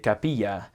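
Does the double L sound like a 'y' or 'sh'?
y. It has a Central American 'y' sound.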